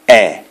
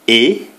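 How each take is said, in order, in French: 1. La voyelle est un e ouvert. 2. La voyelle est un e fermé. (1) "E, accent ouvert" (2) "E, accent fermé"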